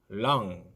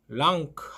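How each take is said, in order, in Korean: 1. 이 단어는 ng 소리로 끝나요. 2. ng 뒤에 k 소리가 나요. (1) "앙 발음이 됩니다" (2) "랑크 하시면 안 됩니다"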